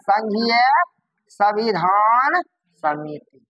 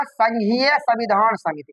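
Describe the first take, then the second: First: Drawn-out words with long pauses; dictating. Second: Said in the usual way. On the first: Shown as a demonstration. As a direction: say it word by word for note-takers. Teacher repeats name for class.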